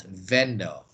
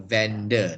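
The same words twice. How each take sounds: First: VENDOR said slowly and low as "VEN-dor"; wrong pronunciation. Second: VENDOR said "VEN-duh"; correct pronunciation. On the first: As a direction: draw out a full "-dor" on VENDOR. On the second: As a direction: keep the end of VENDOR a weak schwa. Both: Shown as a demonstration. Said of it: "not vendor".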